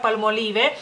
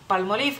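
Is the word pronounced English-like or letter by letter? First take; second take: letter by letter; English-like. First: Every letter is pronounced as written, Spanish-style. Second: It is pronounced closer to the English way. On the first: This is how people in Mexico say it. "ustedes pronuncian cada una de las letras que vienen en esa palabra" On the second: This is how people in Lithuania say it. "en Lituania decimos palmolive"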